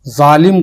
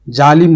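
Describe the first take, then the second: First: Said in the usual way. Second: "ظالم" with j for the z; zalim mispronounced. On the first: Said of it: "ظالم بولے". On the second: Shown as a demonstration. Teacher asking how an error sounds, "ظالم" mispronounced as jalim. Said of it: "اس کو اگر کوئی جالم بولے".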